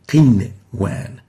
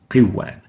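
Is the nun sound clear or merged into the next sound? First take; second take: clear; merged. First: The nun sound is clearly heard before the w. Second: The nun sound is merged into the w. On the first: The speaker calls it right. "showing off the nun rather than merging it" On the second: The speaker calls it wrong. "we shouldn't merge the two to make qiwan. Qiwan is wrong"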